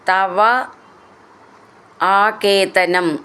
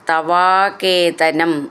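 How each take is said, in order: First: The two words are said separately. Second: The two words are run together as one.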